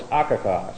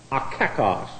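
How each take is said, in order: First: "akakos" said as one word, stress on the first A, AH-ka-kos; right stress. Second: "A kakos" split as a, then KAkos; wrong stress. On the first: Preacher correcting his Greek: "akakos", stress on the first syllable. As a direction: lean on the opening syllable of "akakos". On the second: Preacher showing the wrong stress: "A kakos" as two words. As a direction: stress the second syllable of "A kakos", ka-KOS. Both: Shown as a demonstration. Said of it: "if you put the emphasis on the right syllable".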